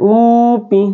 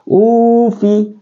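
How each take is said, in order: First: The consonant is pronounced as a p sound. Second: The consonant is pronounced as an f sound. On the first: The speaker calls it wrong. "Jadi tidak boleh upi" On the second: The speaker calls it right.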